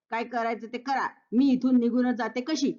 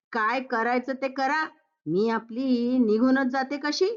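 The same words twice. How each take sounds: First: Lightly mimicking the huffy line, stress on मी; daughter-in-law mimicking her mother-in-law's huffy words; mocking quote. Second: Lightly huffy, rising at कशी; a touch of offended pride on कशी; mother-in-law acting hurt before she leaves; huffy exit line. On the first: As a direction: throw her words back at her. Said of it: "असं कोण म्हणालं?". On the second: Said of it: "आजकालच्या मुली म्हणजे".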